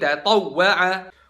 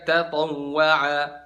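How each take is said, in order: First: The doubled w gets a short stressed jolt. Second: The doubled w is glided over without a jolt. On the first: The speaker calls it right. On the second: The speaker calls it wrong.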